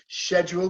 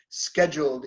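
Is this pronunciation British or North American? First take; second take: British; North American. First: It is said with a British pronunciation. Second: It is said with a North American pronunciation. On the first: "Scheduled is British" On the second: "Scheduled is North American"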